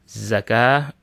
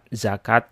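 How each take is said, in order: First: The word ends with an H sound. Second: The word ends with a T sound. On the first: This is the original Arabic form. "aslinya dalam bahasa Arabnya" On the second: This is how it is said in Indonesia. "tak marbutah yang dibaca ta"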